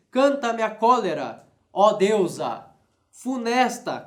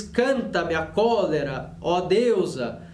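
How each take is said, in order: First: "cólera" stressed, a clear pause, then "funesta" set apart; pause before funesta. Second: "Canta-me a cólera, ó deusa" read slowly in one flow; continuous reading. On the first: Teacher showing students how the line splits, pause before funesta. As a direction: break after "deusa" so "funesta" stands alone. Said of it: "Ele deve separar ali cólera e funesta". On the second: Teacher reading the line to students, slow and flowing. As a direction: read "cólera" and "deusa" together without a break. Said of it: "E depois ele ainda divide". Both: Shown as a demonstration.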